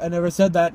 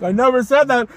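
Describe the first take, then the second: First: Said in the usual way. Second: Higher, more forceful protest; mock-indignant denial; insistent retold denial. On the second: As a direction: protest it, voice rising in pitch.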